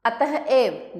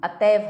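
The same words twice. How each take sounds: First: अतः एव slowly, with a breathed h between; अतः एव as atah, then ev; split in two. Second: Said in the usual way. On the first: Shown as a demonstration. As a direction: part अतः from एव. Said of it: "अतः एव नहीं". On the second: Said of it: "अतएव होता है".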